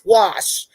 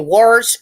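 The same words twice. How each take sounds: First: It has no r sound. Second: It has an r sound inserted. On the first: The speaker calls it right. "it's wash, you know, W A S H" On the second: The speaker calls it wrong. "when people put r's in words that don't need to be in words, like when they say wash"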